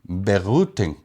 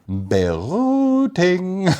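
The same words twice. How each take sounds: First: It is said at normal speed. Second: It is said slowly and musically.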